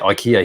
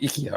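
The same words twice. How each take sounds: First: It is said the local, anglicized way. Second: It is said the original, non-English way. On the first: This is how people here say the name. "But we say IKEA here" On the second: This is how the name is meant to sound. "the actual pronunciation is meant to be IKEA"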